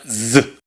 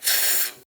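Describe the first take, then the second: First: The z is voiced, with vibrating vocal cords. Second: The z is said as in Spain. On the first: The speaker calls it right. "Se pronuncia z. Recordemos, es sonora, vibran las cuerdas vocales" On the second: The speaker calls it wrong. "no se pronuncia como en España"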